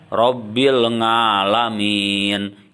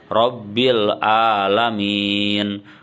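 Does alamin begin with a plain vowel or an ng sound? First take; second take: ng sound; plain vowel. First: Alamin begins with an ng sound. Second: Alamin begins with a plain vowel. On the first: "Itu juga salah" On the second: "Itu salah"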